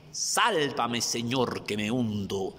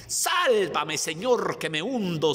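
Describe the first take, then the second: First: Said in the usual way. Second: Sudden high, loud scream for help; drowning cry. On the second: Acted. Preacher voicing Peter sinking in the sea, desperate high shout. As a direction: cry out as if going under the waves. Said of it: "empieza a hundirse".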